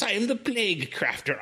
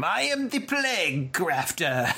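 First: High hammy villain voice; cartoon villain. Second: Slow, high cartoon villain voice. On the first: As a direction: declare it like a cartoon baddie. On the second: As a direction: ham up a cartoon bad guy. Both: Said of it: "cartoon villain name".

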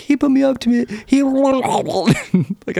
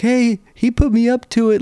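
First: Put-on high-pitched kid getting swamped mid-sentence; high voice breaking into watery garble; kid talking through water. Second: Put-on high-pitched protesting kid; high whine of a kid ratting out his buddy; tattling kid. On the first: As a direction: protest as water washes over your mouth, dissolving into gargle. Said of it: "while he's talking, the water, like, goes over his face". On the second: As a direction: shift the blame like a caught kid. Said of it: "the one is like".

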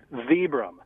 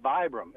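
First: "Vibram" said VEE-brum; "vee" from Vitali opens "Vibram"; long-E Vibram. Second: "Vibram" said VY-brum; "eye" vowel opens "Vibram"; long-I Vibram. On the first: Guest explains the founder's name, "Vibram" as VEE-brum. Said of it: "first and last name come up with". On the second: Guest recalls the old habit, "Vibram" as VY-brum. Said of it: "we all called it". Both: Shown as a demonstration.

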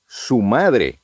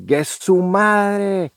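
First: Said in the usual way. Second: Drawn-out, high Mexican "¡Gue su madre!" with a stretched su; slow, lifted Mexican exclamation "¡Gue su madre!"; a Mexican mate daring you, "¡Gue su madre!"; Mexican slang demo. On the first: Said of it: "él extrañamente dice". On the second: Shown as a demonstration. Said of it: "nosotros cuando abreviamos, igual decimos".

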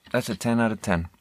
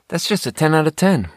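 First: Quiet. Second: Emphatic. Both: Real, not acted. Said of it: "I don't know how else to say it".

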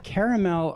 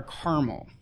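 First: Caramel with an A in the middle; caramel as KAIR-uh-mel; three-syllable caramel. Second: Caramel squashed to CAR-mel; caramel without the middle A; two-syllable caramel. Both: Shown as a demonstration. Offers two pronunciations to choose.

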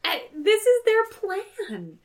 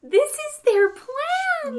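First: Mock high voice. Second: Very high, very slow sing-song; higher mock voice. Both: Mocking the plan.

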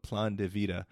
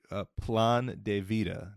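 First: Said in the usual way. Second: Plan de vida with a Spanish accent. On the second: Shown as a demonstration. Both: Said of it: "you could comment on my Spanish accent there".

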